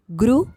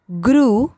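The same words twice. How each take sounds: First: ग्रु with a short u, rising; ग्रु said as quick "gru"; short vowel. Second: ग्रु with a held oo; ग्रु said as long "grooo"; long vowel. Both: Shown as a demonstration. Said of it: "बारह खड़ी के format में".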